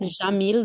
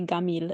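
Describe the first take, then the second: First: The word starts with a soft J sound. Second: The word starts with a hard G sound.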